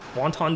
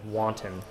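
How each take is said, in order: First: It sounds like the soup name wonton. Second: It sounds like the word wanton. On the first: The speaker calls it wrong. "I now just call it wonton want wonton destruction" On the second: The speaker calls it right. "saying it correctly, which is wanton"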